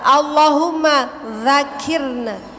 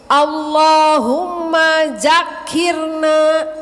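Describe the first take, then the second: First: The second word begins with a soft dh sound. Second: The second word begins with a buzzing z sound. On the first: It is a prayer asking to be remembered. The speaker calls it right. "Harusnya apa? Za, za, za" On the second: It changes the meaning into something vulgar. The speaker calls it wrong. "Ada yang yang baca begini"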